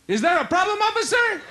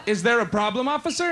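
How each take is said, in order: First: High, exaggerated coy question; hammed-up sweet talk to the officer; copying his girlfriend's coy act. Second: Lightly voiced coy girlfriend; a hint of sweet innocence for the officer; girlfriend charming a cop. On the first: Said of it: "So I tried it". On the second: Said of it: "When a cop pulls her over".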